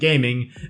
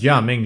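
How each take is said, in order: First: It sounds like the English word 'gaming'. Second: It sounds like the Chinese-style name 'Jia Ming'. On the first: "why I'm saying gaming" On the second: "you pronounce it as Jia Ming"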